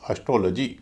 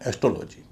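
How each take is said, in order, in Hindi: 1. पहला स्वर हल्का है; दूसरा o ज़ोर वाला है। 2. आख़िरी अक्षर में पूरा o स्वर है। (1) "शुरू में जो ए है वो तो हल्का हो जाएगा" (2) "इसे अधिकतर लोग एस्ट्रोलॉजी कहते हैं"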